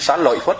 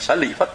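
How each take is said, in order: First: The middle syllable is pronounced lợi. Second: The middle syllable is pronounced lị. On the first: The speaker calls it wrong. "mình đọc là Sa Lợi Phất tức là mình đọc sai" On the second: The speaker calls it right. "Sa Lị Phất là đúng"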